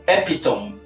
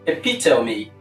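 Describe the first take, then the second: First: It has three syllables and ends in m. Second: It has four syllables and ends in a vowel. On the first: The speaker calls it wrong. "you ended the pronunciation of that word with M" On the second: The speaker calls it right. "the last sound there is a vowel sound"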